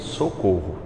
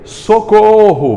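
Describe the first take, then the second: First: It is said flatly and calmly. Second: It is said loudly and shouted.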